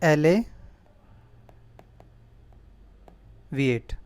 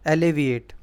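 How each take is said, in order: First: एलिविएट stretched out very slowly, each syllable e-le-vi-ate held long; slow careful pronunciation. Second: Said in the usual way. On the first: Shown as a demonstration. Teacher to students, spelling out the word, very slow and drawn out. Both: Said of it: "दो word हैं".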